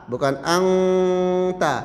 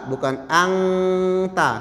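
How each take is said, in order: Both takes have the same delivery.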